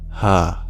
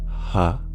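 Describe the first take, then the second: First: The h sound is voiced. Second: The h sound is voiceless. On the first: The speaker calls it right. "The H is voiced" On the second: The speaker calls it wrong. "so it's not ha"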